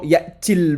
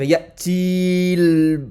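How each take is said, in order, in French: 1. La voyelle avant le lam reste brève. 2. La voyelle avant le lam est allongée. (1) "pas utile de prolonger" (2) "c'est plus difficile"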